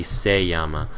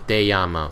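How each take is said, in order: First: "se llama" with an s at the start; correct conjugation. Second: "te llama" with a t at the start; wrong conjugation. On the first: Shown as a demonstration. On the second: Retold or imitated. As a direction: quote the mistaken "te llama". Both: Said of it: "when it's supposed to be".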